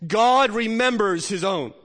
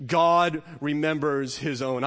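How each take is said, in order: First: Louder and higher, slow, GOD stressed; emphatic refrain. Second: Said in the usual way. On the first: Shown as a demonstration. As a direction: proclaim it, leaning on GOD. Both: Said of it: "refrain repeated through sermon".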